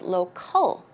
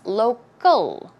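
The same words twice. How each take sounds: First: The c is said as a clear k sound. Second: The c is softened toward a g sound. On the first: The speaker calls it wrong. "I have seen a lot of people pronouncing that word as local" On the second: The speaker calls it right. "the C in this case, it's more of a g, g sound. So it's local"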